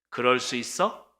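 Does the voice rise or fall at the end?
rise. The voice rises at the end, like a question.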